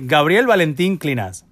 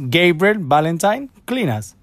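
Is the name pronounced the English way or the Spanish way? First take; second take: Spanish; English. First: The name is pronounced with Spanish sounds. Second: The name is pronounced with English sounds. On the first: "For me, the Spain is" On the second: "And in English"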